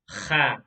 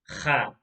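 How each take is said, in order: The two takes are said the same way.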